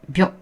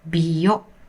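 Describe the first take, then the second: First: It is said quickly as one single beat. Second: It is stretched into two beats, bi-yo. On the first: The speaker calls it right. "contracted sounds also count as one mora" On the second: The speaker calls it wrong. "biyo has two mora"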